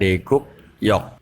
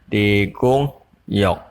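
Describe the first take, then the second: First: The consonant before 'yok' is a 'k' sound. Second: The consonant before 'yok' is an 'ng' sound. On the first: The speaker calls it wrong. "bukan deguk yok" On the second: The speaker calls it right. "dibaca degongyok"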